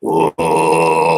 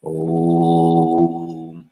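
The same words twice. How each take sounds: First: Dropped-down chant tone. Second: Long, low sustained "oh"; held chant tone. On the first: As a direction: drop to a deep, resonant "oh" and sustain it. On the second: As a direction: hum out one steady low note. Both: Shown as a demonstration. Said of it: "Drop that down a little".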